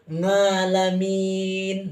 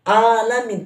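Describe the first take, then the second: First: The word begins with an ng sound. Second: The word begins with a plain alif vowel. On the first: "pakai nga" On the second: "Bukan alamin pakai alif"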